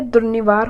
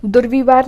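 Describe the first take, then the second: First: दुर्निवार with an n, 'dur-ni-vaar'; correct form. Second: दुर्विवार with a v, 'dur-vi-vaar'; wrong form. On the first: Teacher giving the right word, 'ni' in दुर्निवार. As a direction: say n in the middle of दुर्निवार. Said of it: "दुर्निवार होता है". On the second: Teacher showing the wrong word, 'vi' in दुर्विवार. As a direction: say v in the middle of दुर्विवार. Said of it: "दुर्विवार नहीं होता है". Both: Shown as a demonstration.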